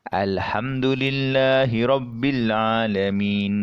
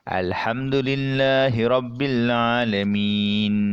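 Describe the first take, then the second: First: The last long vowel is held two beats. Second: The last long vowel is held four beats. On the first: "kita baca dengan dua harakat" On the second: "kita baca dengan empat harakat"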